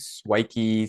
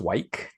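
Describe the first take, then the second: First: The word is said as two syllables. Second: The word is said as one syllable. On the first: "sounds like Nike" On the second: "just to keep it like a one, one syllable"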